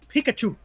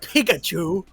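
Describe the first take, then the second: First: The first syllable sounds like 'pick'. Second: The first syllable sounds like 'pig'. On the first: The speaker calls it right. "it's Pikachu" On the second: The speaker calls it wrong. "You say it with like Pig?"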